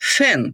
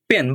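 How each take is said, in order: First: The p is aspirated, with a puff of air. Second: The p is plain, without a puff of air. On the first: The speaker calls it right. "But এটা হবে ফ্যান" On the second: The speaker calls it wrong. "আমরা বলি পেন"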